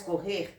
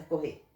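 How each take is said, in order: First: Said in the usual way. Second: "correr" without its final R, ending on a stressed "ê"; dropped final R. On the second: Shown as a demonstration. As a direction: say "correr" as "corrê", eating the last R. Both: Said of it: "Estão comendo o R do final".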